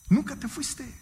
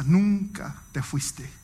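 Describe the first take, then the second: First: Higher, stressing "Nunca" in "Nunca te fuiste"; emphatic repeat. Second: Slow, gentle, lower "nunca te fuiste". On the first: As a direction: hit "Nunca" hard on the repeat. (énfasis fuerte en "Nunca") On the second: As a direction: say it slowly and tenderly, like a welcome home. Pastor's tender words, quoted. (cita tierna y lenta del pastor) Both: Retold or imitated.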